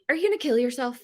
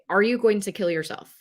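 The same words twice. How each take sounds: First: The question sounds emotionally loaded, not plain. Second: The question is asked plainly and directly. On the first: The asker's own bias or discomfort shows. The speaker calls it wrong. "that's not a good tone" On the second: The question is asked without bias or discomfort. The speaker calls it right. "Ask it direct"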